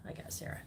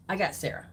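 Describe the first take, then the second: First: Barely audible whispered repeat; whispered to herself. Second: Said in the usual way. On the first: Real, not acted. Host noting a viewer's name, whispering to herself. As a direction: whisper it as a private note.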